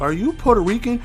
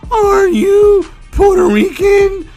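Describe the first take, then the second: First: It is said in the speaker's ordinary voice. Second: It is said in a put-on girlish voice.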